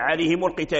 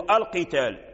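First: عليهم run straight into القتال; hamza of القتال dropped in linking. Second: القتال begun with a clear "al"; hamza of القتال pronounced when starting. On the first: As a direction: join the mim to القتال without a glottal onset. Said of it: "همزة الوصل تحذف بالدرج إذا أدرجنا". (إسقاط همزة الوصل في القتال عند الدرج) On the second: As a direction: start القتال on its glottal onset. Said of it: "إلا ابتدأنا نقول". (إثبات همزة الوصل عند الابتداء بالقتال) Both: Shown as a demonstration.

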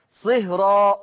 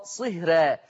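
First: صهرى with a full, heavy ra and open a; صهرى said with the r thick and velarised, a leaning toward o; تفخيم الراء في صهرى. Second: صهرى with a thin, light ra and fronted a; صهرى said with the r light, the vowel toward e; ترقيق الراء في صهرى. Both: Shown as a demonstration. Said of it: "هكذا تقرأ بجواز التفخيم والترقيق".

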